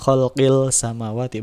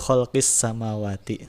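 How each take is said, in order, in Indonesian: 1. Bunyi l diucapkan sebelum s. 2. Bunyi l menyatu menjadi bunyi s yang ganda. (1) "Jadi bukan kholqil samawati, bukan" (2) "tapi langsung ke huruf huruf sin"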